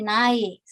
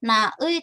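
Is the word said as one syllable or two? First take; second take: one syllable; two syllables. First: It is said as one syllable, nae. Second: It is said as two separate syllables. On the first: The speaker calls it right. "tapi jadi nae" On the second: The speaker calls it wrong. "bukan na ey"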